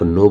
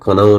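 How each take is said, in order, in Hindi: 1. यह शब्द n की ध्वनि से शुरू होता है। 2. यह शब्द k की ध्वनि से शुरू होता है। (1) "आज से आप नो बोलेंगे" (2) "कनाओ नहीं बोलेंगे"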